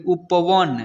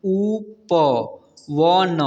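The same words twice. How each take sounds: First: Said in the usual way. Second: उपवन very slow, each letter separate; उपवन broken into drawn-out letters; spelled out letter by letter. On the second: Shown as a demonstration. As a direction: sound out उपवन one long letter at a time. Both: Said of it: "इसे पढ़ेंगे".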